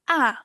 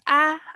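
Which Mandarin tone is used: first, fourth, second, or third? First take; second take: fourth; first. First: The syllable is said with the fourth tone. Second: The syllable is said with the first tone.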